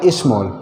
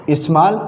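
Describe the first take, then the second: First: स्मॉल with a rounded 'o' sound; rounded 'aw' vowel. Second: स्मॉल with an open 'aa', like smaal; open 'aa' vowel. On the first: Teacher gives second accepted pronunciation, rounded 'aw'. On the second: Teacher gives first accepted pronunciation, open 'aa'. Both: Shown as a demonstration. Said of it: "दोनों हम बोल सकते हैं".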